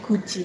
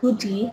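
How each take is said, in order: First: The middle consonant is a j sound. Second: The middle consonant is a plain d sound. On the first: The speaker calls it right. "D kalau ketemu I jadi G, jadi bacanya guji seperti ini" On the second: The speaker calls it wrong. "bukan goody"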